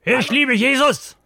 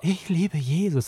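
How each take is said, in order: First: It is said in an angry, furious tone. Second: It is said in a sensual, seductive tone.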